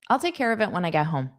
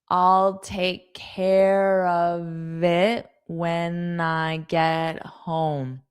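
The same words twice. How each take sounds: First: The sentence is spoken quickly with sounds blended. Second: The sentence is spoken slowly with words separated. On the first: "That was fast" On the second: "now slowly"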